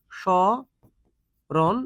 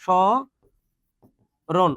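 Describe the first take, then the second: First: স্মরণ split slowly as "sho... ron", oral vowel; চন্দ্রবিন্দু ছাড়া. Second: স্মরণ split very slowly with a nasal "shõ... ron"; চন্দ্রবিন্দু সহ. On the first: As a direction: draw out "sho" with no nasal sound, pause, finish স্মরণ. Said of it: "এরকম". (স্মরণ ধীরে ভেঙে "শ... রোন") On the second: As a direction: nasalise and hold the first vowel of স্মরণ, then pause. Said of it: "চন্দ্রবিন্দু আছে". (স্মরণ নাকি সুরে "শঁ... রোন") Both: Shown as a demonstration.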